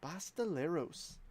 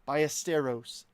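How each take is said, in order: First: The name is said as Basteleros. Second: The name is said as Ballesteros. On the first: The speaker calls it wrong. "I called him Basteleros for like well over a year. Incorrectly" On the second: The speaker calls it right. "I've been mispronouncing his name all along"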